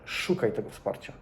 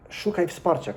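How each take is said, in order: First: Soft, breathy whisper of advice; hushed insistent whisper to a friend; whispered urging. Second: Said in the usual way. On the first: Shown as a demonstration. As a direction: lean in and whisper it like a secret. Repeated advice, whispered take.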